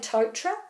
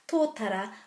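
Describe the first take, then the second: First: The vowels run together into two syllables. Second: Each vowel is sounded, giving three syllables. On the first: The speaker calls it wrong. "people say Tautra" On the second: The speaker calls it right. "you would prefer it to be called Tōtara"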